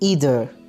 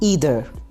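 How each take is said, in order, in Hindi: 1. शब्द 'ee' ध्वनि से शुरू होता है। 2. शब्द 'ee' ध्वनि से शुरू होता है।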